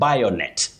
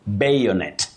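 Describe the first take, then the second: First: The first vowel is not the letter A's name. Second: The first vowel sounds like the letter A's name. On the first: The speaker calls it wrong. "avoid saying bayonet" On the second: The speaker calls it right. "that is A, takes its name as the sound"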